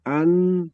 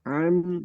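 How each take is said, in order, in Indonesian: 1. Dimulai dengan hentian glotal yang ringan. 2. Dimulai dengan bunyi tenggorokan yang dalam. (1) "itu Hamzah" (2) "yang kedua baru an"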